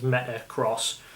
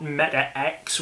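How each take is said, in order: First: The ending is said as the word 'cross'. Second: The ending is said as the letter X. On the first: This is the official way to say the name. The speaker calls it right. "The official pronunciation is Metacross" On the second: This is how many people say the name. The speaker calls it wrong. "not Meta X, which I've heard is what people are saying"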